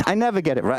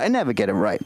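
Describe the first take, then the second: First: Said in the usual way. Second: Much lower. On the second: Shown as a demonstration.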